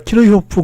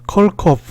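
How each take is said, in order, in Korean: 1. 독일식으로 발음해요. Kir-hi-hof 같아요. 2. 영어식으로 발음해요. Kerk-off 같아요. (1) "내가 키르히호프 그랬더니 모르, 모르더라고요" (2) "독일 이민한 사람이 아닌 다른 데 사람들은 ... 컬커프 이렇게 불러요"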